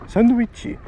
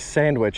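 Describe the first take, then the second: First: It is said with Japanese sounds, ending in -chi. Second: It is said with plain English sounds. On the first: Local listeners understand it completely. The speaker calls it right. "you say sandwichi and they get it completely" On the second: Local listeners will not understand it. The speaker calls it wrong. "You could say sandwich and they won't understand you"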